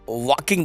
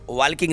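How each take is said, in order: First: The L sound is silent in the word. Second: The L sound is pronounced in the word. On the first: The speaker calls it right. "एल का sound नहीं आता है तो इसको वॉकिंग बोलेंगे" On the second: The speaker calls it wrong. "इसको वॉकिंग नहीं बोलेंगे"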